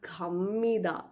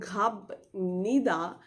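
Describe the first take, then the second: First: An m sound comes before nida. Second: A b sound comes before nida. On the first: "you would read it as kamida" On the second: "Even though you're writing khab nida"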